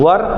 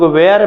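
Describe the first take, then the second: First: The vowel sounds like 'ur', as in 'fur'. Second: The vowel sounds like 'air', as in 'where'. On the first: The speaker calls it right. "लेकिन सही pronunciation वर होता है।" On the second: The speaker calls it wrong. "कहीं कहीं कुछ लोग वेयर भी पढ़ देते हैं"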